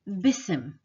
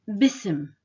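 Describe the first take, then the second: No difference in how they are said.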